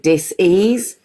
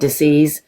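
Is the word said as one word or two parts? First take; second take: two parts; one word. First: The word is split into two separate parts. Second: The word is said smoothly as one unit. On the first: It means a lack of ease. The speaker calls it right. "I prefer to say disease ... if you break it up into two parts" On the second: It means an illness. The speaker calls it wrong. "rather than disease"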